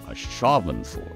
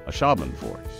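First: The word is said slowly and carefully. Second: The word is said quickly and casually.

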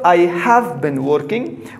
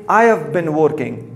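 First: The word have is pronounced in full. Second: The word have is contracted to 've. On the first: "Instead of I have been working" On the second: "we say I have been working"

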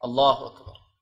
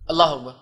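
First: It is said slowly and calmly. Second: It is said fast and hurried.

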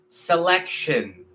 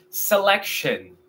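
Both takes have the same delivery.

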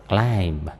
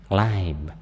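No difference in how they are said.

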